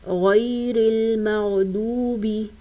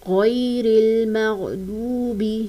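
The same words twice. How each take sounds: Both takes have the same delivery.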